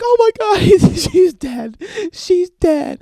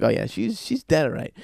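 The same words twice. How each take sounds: First: High, loud, drawn-out wailing; mock hysterical wail. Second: Casual agreement in usual voice; matter-of-fact. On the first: Girlfriend finds her bird dead, mock hysterical wailing. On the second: Acted. Boyfriend answers wailing girlfriend, matter-of-fact agreement. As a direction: confirm it without any hysteria. Boyfriend calmly confirms bird's death.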